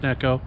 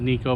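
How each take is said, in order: First: The first vowel sounds like 'eh'. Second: The first vowel sounds like 'ee'. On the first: The speaker calls it right. "but it is pronounced as Neko" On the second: The speaker calls it wrong. "some people pronounce it as Nico"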